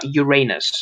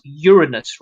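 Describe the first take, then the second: First: Uranus with a long AY, stressed in the middle; wrong pronunciation. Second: Uranus as YUR-uh-nus, middle syllable light; scientific pronunciation. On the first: Friend showing co-host how not to say it, Uranus as yur-AY-nus. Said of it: "Not Uranus". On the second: Friend correcting co-host on the actual pronunciation, scientific Uranus, stressed first. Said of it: "it's actually pronounced Uranus". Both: Shown as a demonstration.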